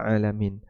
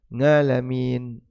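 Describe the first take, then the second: First: The word begins with a throaty vowel sound. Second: The word begins with an 'ng' sound. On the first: The speaker calls it right. "mengucapkan huruf A dengan baik" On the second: The speaker calls it wrong. "Sebentar, latihan dulu"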